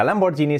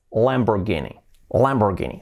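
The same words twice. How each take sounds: First: Said in the usual way. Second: Lamborghini with a hard g, "-GEE-nee"; English pronunciation. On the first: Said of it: "pues no sería Lamborghini". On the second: Shown as a demonstration. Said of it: "pero en inglés sería así".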